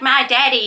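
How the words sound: It is said in an Australian accent.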